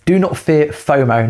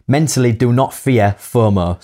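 First: Said in the usual way. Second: Fomo with a prominent Hull accent; strong Hull vowels in FOMO. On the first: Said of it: "I think you meant to say". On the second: Real, not acted. Co-host reading tip number six, prominent Hull accent. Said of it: "my Hull accent came right in there".

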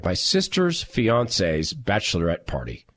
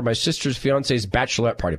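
First: Lower, deliberate re-reading; slow, puzzled repeat. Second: Said in the usual way. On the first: Real, not acted. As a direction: spell out the phrase slowly, word by word. Repeats odd phrase slowly to check.

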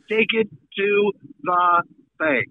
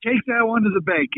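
First: Each word spaced out for emphasis. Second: Said in the usual way. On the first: Acted. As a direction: land "Take it to the bank" word by word. Repeats promise slowly, word by word.

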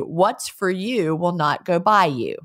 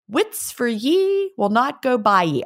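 First: Said in the usual way. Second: Higher, lilting Scots WITS and YE; Scots dialect saying. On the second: Shown as a demonstration. Trying the translated saying back in Scots dialect. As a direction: say it with Scots "ye" for you. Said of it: "which translates to".

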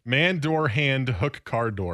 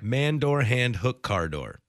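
First: Clean word-by-word delivery; Man, door, hand, hook, car door spaced evenly; correct version. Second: Effortful word-by-word try; Man, door, hand, hook, car door, falling at the end; struggling attempt. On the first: Host shows co-host the right order, word by word. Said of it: "I can't even do that". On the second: Co-host tries the phrase after host, stumbling. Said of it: "degree in theater". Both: Shown as a demonstration.

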